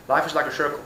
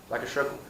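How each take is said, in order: First: Said in the usual way. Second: Much softer, lower echo of the phrase; a soft trailing echo of like a circle; fading echo. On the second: Shown as a demonstration. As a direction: let it fade away like an echo. Echoes the quoted saying.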